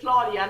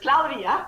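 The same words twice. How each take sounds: First: The name is said with an American accent. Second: The name is said with a Spanish accent. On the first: This is how people around here say it. "I say Claudia like everybody here" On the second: This is the name's actual pronunciation. "but it's Claudia, actually"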